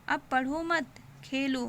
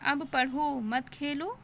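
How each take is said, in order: First: The pause comes after 'mat'. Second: The pause comes after 'padho'.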